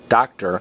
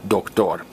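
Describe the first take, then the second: First: The stress is on the first syllable. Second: The stress is on the last syllable. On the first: This is the English pronunciation. "in English we stress the first O" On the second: This is the Spanish pronunciation. "in Spanish we stress the last O"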